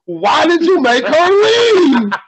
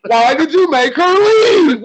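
First: High, slow, drawn-out plea; a friend's pleading question, imitated; imitating friend's whine. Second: High, slow, drawn-out plea; imitating friend's plea. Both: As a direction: mimic the friend's plaintive question, stretching leave. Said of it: "asked him".

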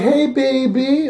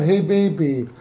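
First: Imitating a flirty British caller, slow and higher. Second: Said in the usual way. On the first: Host retells the flirty private caller: slow, higher mock come-on. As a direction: drawl it out like a teasing late-night caller. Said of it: "she's like". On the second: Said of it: "Oh, look at that".

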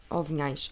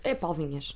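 First: Vinhais said with a closing ai, as an unsure guess; wrong name form. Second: Paulo Vinhas with plain a and no i glide; corrected name. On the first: Doubting the millionaire's name, tries Vinhais unsurely. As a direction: try Vinhais with the diphthong ai. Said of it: "Ai, espera aí que eu devia". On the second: Correcting herself on the millionaire's name, Vinhas said firmly. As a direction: settle firmly on Vinhas as vi-nhas. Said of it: "Não, eu sei que é Vinhas". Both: Shown as a demonstration.

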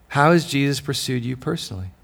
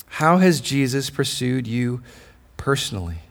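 First: Said in the usual way. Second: Slow and weighty, dropping low on "personally"; slow question. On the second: Shown as a demonstration. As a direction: let "how has Jesus pursued you" sink in slowly.

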